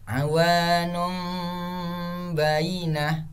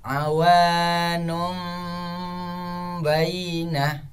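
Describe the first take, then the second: The two takes are said the same way.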